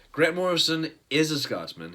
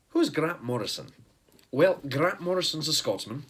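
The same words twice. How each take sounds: First: Said in the usual way. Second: Mock Scottish accent, a bit louder; hammed-up American take on a Scottish accent; fake Scottish accent. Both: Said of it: "try to stop doing a fake Scottish accent".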